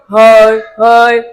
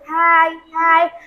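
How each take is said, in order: First: It is said in a deeper, rounder voice. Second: It is said in a high, cute voice.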